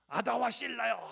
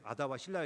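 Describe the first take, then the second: First: It is said boldly and boastfully. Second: It is said hesitantly and timidly. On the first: The man is bragging about his strength. The speaker calls it right. "딱 자랑하는 게 느껴지잖아요" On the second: The man is unsure and shy before his wives. The speaker calls it wrong. "이렇게 쭈삣쭈삣"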